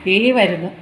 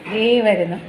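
No difference in how they are said.

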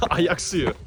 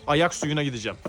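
First: Ayak suyu with a laugh. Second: Said in the usual way. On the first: Real, not acted. Repeats laughing.

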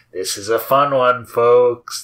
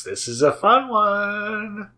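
First: Said in the usual way. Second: Higher and slow, drawn out sing-song; a goofy high slow drawl; odd put-on voice. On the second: Shown as a demonstration. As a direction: stretch it out up high, half-joking. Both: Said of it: "I don't know why I'm talking like that".

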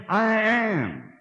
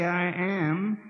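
First: Loud I am. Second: Said in the usual way. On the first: Shown as a demonstration. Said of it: "because he said". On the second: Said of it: "He permits me to say".

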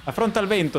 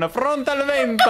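First: Said in the usual way. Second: Higher, louder epic announcement, laughing; champion battle cry. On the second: Retold or imitated. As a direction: boom it out like a hero's entrance. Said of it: "voleva annunciare il suo arrivo con".

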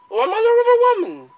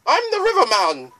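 First: Very high, loud singsong; squeaky ferrywoman correcting herself; River Woman voice. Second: High, loud singsong boatman; lilting ferryman introduction; light boatman voice, raised pitch; River Man voice. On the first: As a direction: flip up into a falsetto boatwoman. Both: Acted.

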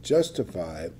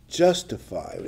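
First: Justified said lower and slower, leaned on; emphasize justified; stress on justified. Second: Said in the usual way. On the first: Shown as a demonstration. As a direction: dwell on justified. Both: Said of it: "emphasize that word".

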